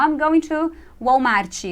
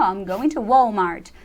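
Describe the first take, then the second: First: Walmart with a Brazilian chi ending, slow; wrong pronunciation. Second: Walmart with a clean English t at the end, slow; English pronunciation. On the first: Teacher showing the wrong English Walmart, slowly. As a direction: say Walmart the Portuguese way, Uólmarchi. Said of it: "Não". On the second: Teacher modelling correct English Walmart, slowly. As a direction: say Walmart the American way. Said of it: "Aí você muda a pronúncia". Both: Shown as a demonstration.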